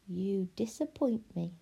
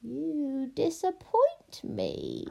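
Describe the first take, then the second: First: Hushed, unvoiced whisper. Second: High, very slow witch drawl; disappointed witch. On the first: A narrator's reading. Pellegrina leans close to Edward, whispering. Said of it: "she whispered". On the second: Acted. Witch judges the loveless princess, ominously disappointed. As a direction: stretch the judgement out, rising.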